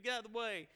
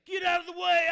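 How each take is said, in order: First: Said in the usual way. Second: High, loud shouted warning; frantic shout to clear a path; retold scream. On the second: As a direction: yell it at the crowd blocking you. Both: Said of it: "screaming people".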